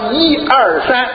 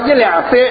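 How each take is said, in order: First: The numbers are said in Beijing Mandarin. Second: The numbers are said in Shanghainese. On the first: "北京话" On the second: "上海话"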